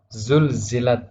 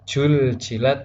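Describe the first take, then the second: First: The word begins with a z sound. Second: The word begins with a j sound. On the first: The speaker calls it right. "Zulzilat betul" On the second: The speaker calls it wrong. "huruf za menjadi huruf jim ... maka salah"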